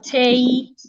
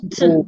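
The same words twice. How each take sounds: First: The vowel is a full 'a' sound. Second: The vowel is reduced to a schwa. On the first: The speaker calls it wrong. "naturally, we're supposed to say table" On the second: The speaker calls it right. "the vowel there has to be reduced into a schwa"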